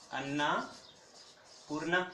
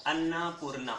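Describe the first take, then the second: First: "Annapurna" stretched slowly, syllable by syllable; teacher drawing out "Annapurna" so students catch it; slow spelled-out name. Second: Said in the usual way. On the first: Shown as a demonstration.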